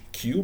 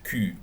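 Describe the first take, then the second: First: It sounds like 'kyoo' with an oo vowel. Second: It sounds like 'ku' with a rounded front vowel. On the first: "we pronounce this in English Q" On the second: "but in French Q"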